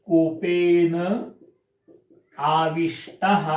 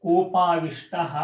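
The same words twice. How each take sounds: First: Koppen, long pause, then आविष्टः, slow; split compound with pause. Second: Said in the usual way. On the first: Shown as a demonstration. Teacher splitting the compound for students, Koppen then आविष्टः. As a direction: break Koppen and आविष्टः apart clearly. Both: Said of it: "त्यातलं पण एक समास लक्षात ठेवा".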